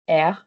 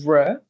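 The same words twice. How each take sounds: First: The r is made at the back of the throat. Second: The r is made forward, not in the throat. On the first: It is the sound it should properly be. "essentially the sound is supposed to be R" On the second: It is an easier substitute sound. "you can just um, you know use the use the sound R"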